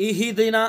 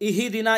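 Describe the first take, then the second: Both takes have the same delivery.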